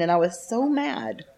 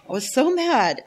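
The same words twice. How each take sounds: First: Said in the usual way. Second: Louder emphatic repeat. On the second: Real, not acted.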